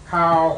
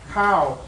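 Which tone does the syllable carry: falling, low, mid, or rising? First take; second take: mid; falling. First: The pitch stays level in the middle range. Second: The pitch falls across the syllable. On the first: It means a putrid, fishy smell. "Now we have a mid-tone" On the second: It means rice. "That's a falling tone"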